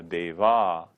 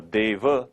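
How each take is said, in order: First: Deva ending in a drawn "aaa"; long final a in deva. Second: Deva ending in a brief "uh"; short final a in deva. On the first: Teacher naming a female divine being, long-ending deva. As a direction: say deva as "day-vaaa". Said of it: "the long ending a". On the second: Teacher naming a male divine being, short-ending deva. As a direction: say deva as "day-vuh". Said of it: "'cause the long ending a". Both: Shown as a demonstration.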